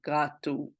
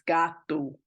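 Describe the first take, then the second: First: The first vowel is said with a closed mouth. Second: The first vowel is said with a wide-open mouth. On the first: The speaker calls it wrong. "I tend to close my mouth a little bit too much. And so it might sound more like gato" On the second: The speaker calls it right. "but it's gato"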